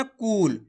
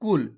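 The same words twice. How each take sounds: First: "कूल" with a long, stretched oo; drawn-out vowel. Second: "कुल" with a short, quick u; short vowel. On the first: Teacher showing learners what to avoid, long oo in "कूल". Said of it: "आपको ऐसे नहीं पढ़ना". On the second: Teacher showing how to read it, short u in "कुल". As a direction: keep the u in "कुल" brief, then release the l. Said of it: "कम खींच के पढ़ेंगे". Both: Shown as a demonstration.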